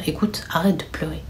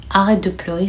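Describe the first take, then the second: First: Hushed whisper, much softer; urgent soft whisper; whispered comfort. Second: Said in the usual way. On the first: Retold or imitated. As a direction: whisper to calm her down. Older sister hushing crying sister.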